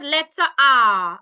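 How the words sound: It is said in a British accent. "in British it's called"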